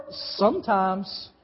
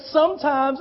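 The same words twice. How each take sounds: First: "sometimes" drawn out slowly; stress on SOMETIMES. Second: Said in the usual way. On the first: Shown as a demonstration. Preacher showing the crowd which wrong word they emphasized, stressing "sometimes". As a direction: stretch out the word "sometimes", leaning on it. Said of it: "Some of you emphasize the word". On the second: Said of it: "I want you to emphasize the word".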